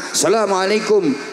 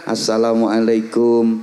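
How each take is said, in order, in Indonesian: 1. Salamnya diucapkan dengan nada tinggi. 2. Salamnya diucapkan dengan nada biasa. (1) "salamnya pakai nada tinggi" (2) "sambil membungkukkan badan assalamualaikum begini kalau di Indonesia"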